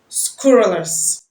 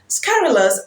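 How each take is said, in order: First: The first vowel sounds like 'oo'. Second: The first vowel sounds like 'uh'. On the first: The speaker calls it wrong. "because of the word scrutinize" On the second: The speaker calls it right. "the U in scurrilous is pronounced as a sound"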